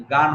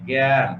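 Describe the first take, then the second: First: গান with a full open "aa"; wrong reading demo. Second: জ্ঞান as "gyan", vowel fronted to "ae"; altered vowel pronunciation. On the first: Teacher showing students the rejected reading, গান with open আ. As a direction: say গান with a long আ vowel. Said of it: "গান হয় নাই". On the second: Teacher correcting students to জ্ঞান said with an "ae" vowel. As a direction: say জ্ঞান as "gen", not with an open আ. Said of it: "জ্ঞান বিকৃত উচ্চারণ হয়েছে". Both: Shown as a demonstration.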